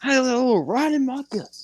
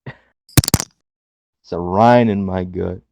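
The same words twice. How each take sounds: First: High, fast squeaky parody of the catchphrase; mock Cameron Grimes. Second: Slow, drawn-out catchphrase delivery; imitating Cameron Grimes. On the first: Cohost mocking a wrestler's catchphrase, high and fast. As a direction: squeak it out much higher. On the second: Podcast cohost imitating a wrestler's catchphrase, slow drawn-out. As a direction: stretch it out like a wrestling promo. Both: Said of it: "Didn't Cameron Grimes say that?".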